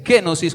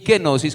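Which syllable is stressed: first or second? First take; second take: first; second. First: The stress is on the first syllable. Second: The stress is on the second syllable. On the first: "con acento en la E" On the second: "con acento en la O"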